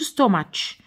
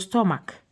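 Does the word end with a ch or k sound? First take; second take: ch; k. First: The word ends with a ch sound. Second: The word ends with a k sound. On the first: The speaker calls it wrong. "ما نقولوش ستوماتش" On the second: The speaker calls it right. "نقولوا ستوماك"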